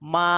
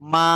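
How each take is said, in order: No difference in how they are said.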